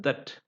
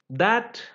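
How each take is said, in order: First: THAT reduced to "thuht", softer; weak form. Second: THAT high and full, open "a"; strong form. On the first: Teacher listing conjunction forms, weak form. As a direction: say THAT unstressed with a neutral vowel. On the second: Teacher listing conjunction forms, strong form. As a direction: say THAT as a stressed full word. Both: Shown as a demonstration. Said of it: "both a strong form and a weak form".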